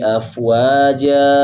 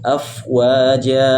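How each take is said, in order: First: The final vowel is held long. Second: The final vowel is held short. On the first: The speaker calls it wrong. "tidak boleh kita membaca panjang sampai empat harokat" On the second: The speaker calls it right. "cukup dua harokat saja"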